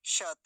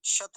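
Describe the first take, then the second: First: शत said "shata", slow and open; शत in two full syllables; full final vowel. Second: शत cut short as "shat"; शत closed on a bare t; wrong form. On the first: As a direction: sound the a after the t in शत. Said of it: "तकार पूरा है". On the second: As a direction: drop the final a of शत. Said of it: "शत नहीं बोलेंगे". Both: Shown as a demonstration.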